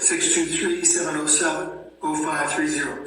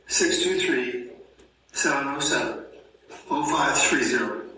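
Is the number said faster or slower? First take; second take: faster; slower. First: The number is said at normal speed. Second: The number is said slowly.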